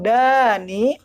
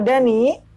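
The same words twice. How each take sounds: First: The first vowel is said long. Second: The first vowel is said short. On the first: The name means near. "Tapi kalau Dani artinya apa? Dekat" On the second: The name means badness. "danya tidak dipanjangkan"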